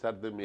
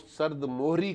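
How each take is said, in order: First: The second word is said with an 'e' vowel. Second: The second word is said with an 'o' vowel. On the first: The speaker calls it right. "सर्द मेहरी के बजाय" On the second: The speaker calls it wrong. "बहुत से anchor जो है वो सर्द मोहरी का लफ्ज़ इस्तेमाल करते हैं"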